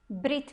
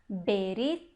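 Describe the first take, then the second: First: The first two consonants are said together, no vowel. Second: A short vowel separates the first two consonants. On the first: This is the everyday modern way of speaking. "a gente tenta falar de uma maneira que é mais fácil" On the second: This is how it is read in scripture or prayer. "a forma correta em hebraico bíblico"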